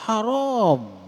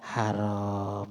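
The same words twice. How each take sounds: First: The word is said loudly and firmly. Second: The word is said in a low, soft voice. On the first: The speaker strongly condemns it. "Tegas ngomongnya ya" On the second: The speaker condemns it only half-heartedly. "dengan nada rendah"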